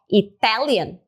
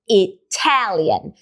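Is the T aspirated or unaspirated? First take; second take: unaspirated; aspirated. First: The T is released without an extra puff of air. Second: The T is released with an extra puff of air. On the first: The speaker calls it wrong. "não falo só Italian" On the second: The speaker calls it right. "Sai um arzinho a mais"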